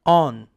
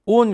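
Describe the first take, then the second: First: "on" with an open "ah" vowel; correct vowel. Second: "on" mispronounced with a closed O, like "own"; wrong vowel. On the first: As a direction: model "on" as "ahn", mouth open. ("on"을 '아안'처럼 열어서 발음) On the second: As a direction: say "on" the mistaken Korean-learner way, "oon". ("on"을 '오운'처럼 틀리게 발음) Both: Shown as a demonstration. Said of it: "on 그러시면 안 돼요".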